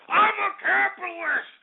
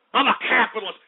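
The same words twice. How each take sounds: First: Screamed declaration. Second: Forceful, indignant declaration; emphatic declaration. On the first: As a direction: scream it out far higher, stretching it. Repeats declaration as outburst. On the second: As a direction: declare it firmly, short of a scream. First declaration in a heated rant. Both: Real, not acted.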